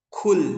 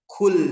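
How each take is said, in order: First: The q is released with an audible breath. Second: The same.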